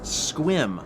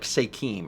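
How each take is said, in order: First: The word is said with one syllable. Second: The word is said with two syllables. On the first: "It's one syllable?" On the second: "so it's probably like Sekim or something"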